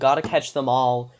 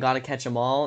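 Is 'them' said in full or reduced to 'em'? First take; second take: full; reduced. First: The word 'them' is said in full. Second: The word 'them' is shortened to 'em'. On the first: "It feels wrong" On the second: "instead of saying"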